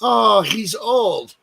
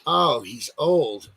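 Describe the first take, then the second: First: Drawn-out loud shrug of a bystander; mock bystander. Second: Slow, lower mocking drawl; mock bystander. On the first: Host mocking how people excuse old men, slow and loud. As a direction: drag it out like an onlooker excusing him. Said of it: "everyone else is like". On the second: Host mocking how people excuse old men, slow and low. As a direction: drop the voice and let it sag dismissively. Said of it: "everyone's like".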